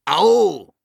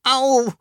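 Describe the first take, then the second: First: High, loud ow from another creature; loud pained call. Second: High, loud yelp; cry of pain. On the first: Dragon under the fallen Sams, loud pained cry. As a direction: yell it as the one being landed on. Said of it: "Gleichzeitig rief noch jemand". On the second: Sams landing on something prickly, high pained cry. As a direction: yelp in sudden pain, pitched way up. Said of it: "schrie das Sams". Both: A narrator's reading.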